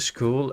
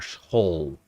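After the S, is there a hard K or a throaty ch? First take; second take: hard K; throaty ch. First: The S is followed by a hard K sound. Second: The S is followed by a throaty ch sound. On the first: "for you it's it's like the S K" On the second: "for us it's the S G"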